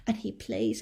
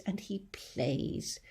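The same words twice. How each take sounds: First: Said in the usual way. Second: Soft, slow fading line. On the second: Acted. James letting the grasshopper verse fade away. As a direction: let it die away.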